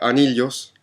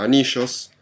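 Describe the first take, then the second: First: It is said with a Peruvian Spanish accent. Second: It is said with an Argentine Spanish accent. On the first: "en Perú la gente pronuncia anillos" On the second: "en Argentina anillos"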